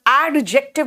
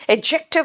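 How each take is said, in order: First: "एडजेक्टिव" split as AD-jective with a clear D; sounded D, wrong. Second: "एडजेक्टिव" said as a-jective, the D dropped; silent D. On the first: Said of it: "नहीं बोल रही बेटा". ("एडजेक्टिव" में डी साफ़ बोलकर) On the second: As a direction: glide straight from the first vowel to J in "एडजेक्टिव". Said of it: "वहां डी silent है". ("एडजेक्टिव" में डी silent) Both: Shown as a demonstration.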